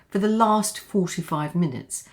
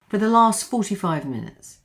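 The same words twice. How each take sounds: First: The T in 'last' is fully released. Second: The T in 'last' is stopped, not released.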